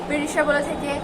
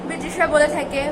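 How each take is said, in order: No difference in how they are said.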